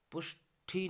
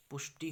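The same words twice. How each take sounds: First: पुष्टि with aspirated ठी, pitched higher; wrong pronunciation. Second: पुष्टि with unaspirated टि; correct pronunciation. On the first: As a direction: say पुष्टि as "pushthi". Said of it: "नहीं होगा". (पुष्टि में टि की जगह ठी बोलें) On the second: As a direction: say पुष्टि as "pushti", no puff. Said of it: "होगा". (पुष्टि में अल्पप्राण टि बोलें) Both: Shown as a demonstration.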